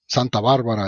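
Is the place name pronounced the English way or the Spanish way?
Spanish. The name is pronounced with Spanish sounds. "Santa Barbara is how you say it in Spanish"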